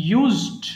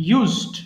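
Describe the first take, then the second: Both takes have the same delivery.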